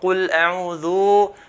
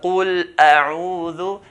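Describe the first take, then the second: First: The final dhu syllable is stretched long. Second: The final dhu syllable is kept short. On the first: The speaker calls it wrong. "we shouldn't stretch the dal too long. No, so, so it's not qul a'udhu" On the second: The speaker calls it right. "but qul a'udhu"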